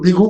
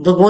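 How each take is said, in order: First: The first vowel is an 'i' sound. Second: The first vowel is an 'a' sound. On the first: The speaker calls it right. "उसको बिगू कहते हैं" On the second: The speaker calls it wrong. "बगो नहीं कहते"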